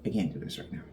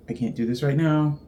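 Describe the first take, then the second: First: A much lower, softer repeat of the line; low, much softer mutter. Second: Said in the usual way. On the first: Real, not acted. Repeats line, then drops away.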